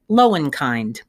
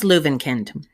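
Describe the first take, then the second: First: The name is said with English-style vowel sounds. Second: The name is said with German vowel sounds.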